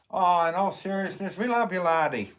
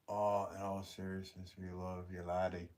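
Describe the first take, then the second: First: Loud, high hammed-up Scottish brogue; bad Scottish accent. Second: Said in the usual way. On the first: Reading a chat message to a viewer in a bad Scottish accent. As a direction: overdo a Scottish accent, it slides toward Irish. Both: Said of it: "that was a horrible impression".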